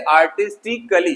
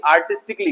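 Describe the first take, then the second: First: आर्टिस्टिकली with a full "कली" ending; wrong pronunciation. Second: आर्टिस्टिकली ending in a joined "क्ली"; correct pronunciation. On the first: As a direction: add a vowel, आर्टिस्टि-कली. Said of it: "पढ़ते समय इसको कली पढ़ते हैं". (गलत उच्चारण, आर्टिस्टिकली के अंत में "कली") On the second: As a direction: drop the vowel, आर्टिस्टि-क्ली. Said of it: "इसको सिर्फ पढ़ना है क्ली". (सही उच्चारण, आर्टिस्टिकली के अंत में "क्ली") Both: Shown as a demonstration.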